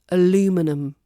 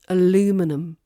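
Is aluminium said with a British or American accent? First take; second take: American; American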